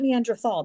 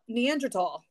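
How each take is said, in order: First: The last syllable starts with a TH sound. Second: The last syllable starts with a plain T sound. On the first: The speaker calls it wrong. "It's not Neanderthal" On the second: The speaker calls it right. "it's how it's pronounced"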